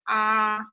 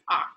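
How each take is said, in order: First: The pitch stays high and level. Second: The pitch stays low. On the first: "First tone is high and flat" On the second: "it's a really low tone"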